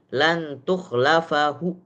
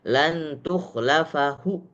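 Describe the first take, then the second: First: A faint final vowel is heard at the end. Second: A faint final vowel is heard at the end.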